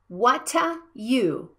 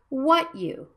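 First: An extra vowel is inserted between the words. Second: The words link directly with no extra vowel. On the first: The speaker calls it wrong. "not what-a you" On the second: The speaker calls it right. "I want to check it with the linking sounds"

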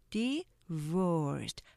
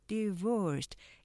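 First: Said slowly, with the end drawn out. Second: Said quickly, with the end kept short. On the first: "좀 길게 되죠" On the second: "빨리 하시면"

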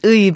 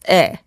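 First: The vowel glides from 'u' to 'i'. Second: The vowel is a plain 'e' sound. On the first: This is the careful, written-form pronunciation. "If you pronounce it correctly, it is 의" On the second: This is how people commonly say it in everyday speech. "everybody just says 에"

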